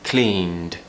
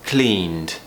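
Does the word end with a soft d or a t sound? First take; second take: soft d; soft d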